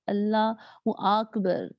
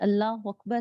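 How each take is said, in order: First: The first vowel of Akbar is stretched long. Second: The first vowel of Akbar is short. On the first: The speaker calls it wrong. "ऐसे कर दिया, अलिफ़ बढ़ा दिया" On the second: The speaker calls it right. "जैसे अल्लाहू अकबर है"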